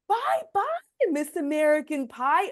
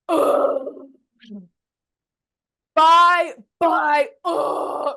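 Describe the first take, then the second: First: It sounds gentle, like reading to kindergartners. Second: It sounds disgruntled and fed up.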